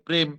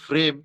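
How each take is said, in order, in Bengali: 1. প্রথম ধ্বনিটি সাধারণ, অল্পপ্রাণ p। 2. প্রথম ধ্বনিটি শ্বাসযুক্ত মহাপ্রাণ ph।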